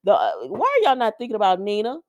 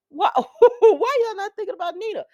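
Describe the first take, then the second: First: Said in the usual way. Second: High, loud and laughing; laughing at the characters ignoring Nina; laughing question. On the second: Real, not acted. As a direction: laugh it out in disbelief. Repeats her question, laughing, louder.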